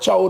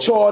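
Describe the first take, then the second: First: The word sounds like chowd, ending in d. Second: The word sounds like chord, with an r. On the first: "He called it chord or chad or chowd or something" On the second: "He called it chord or chad or chowd or something"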